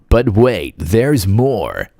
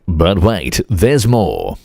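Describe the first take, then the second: First: It is said in an American infomercial-style accent. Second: It is said in an Australian accent.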